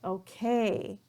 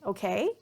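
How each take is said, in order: First: It sounds annoyed and impatient, not questioning. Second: The pitch rises, sounding like a question. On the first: The speaker is fed up with the situation. "maybe I'm showing that I'm a little bit um, annoyed or I'm impatient" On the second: The speaker wants the listener to respond or confirm. "my tone or my pitch is going up"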